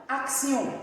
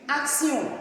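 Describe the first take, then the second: Both takes have the same delivery.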